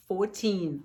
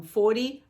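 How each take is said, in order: First: Put-on fourteen with the stress on teen. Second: Forty with the stress on for; forty stressed first. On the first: Teacher contrasting fourteen with forty for students. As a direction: land on the end of fourteen. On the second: Teacher contrasting forty with fourteen for students. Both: Shown as a demonstration. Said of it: "Observe essa diferença".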